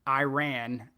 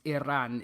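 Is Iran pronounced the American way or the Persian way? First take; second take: American; Persian. First: Iran is pronounced the American way. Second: Iran is pronounced the Persian way. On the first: The speaker calls it wrong. "American politicians saying Iran" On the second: The speaker calls it right. "she goes, no, no, it's Iran"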